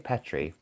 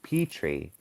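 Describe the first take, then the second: First: It is said with a European pronunciation. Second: It is said with an American pronunciation. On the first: "I would say" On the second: "in the U S A, we pronounce it"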